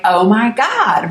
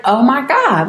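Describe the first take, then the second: First: Slow, drawn-out stunned disbelief. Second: Higher shocked exclamation; blurting out disbelief. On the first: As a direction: mouth hanging open in shock. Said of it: "my mouth flies open like". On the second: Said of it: "And I was like". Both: Retold or imitated.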